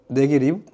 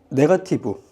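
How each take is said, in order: First: It is said with a native English-style pronunciation. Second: It is said with a Korean-style loanword pronunciation.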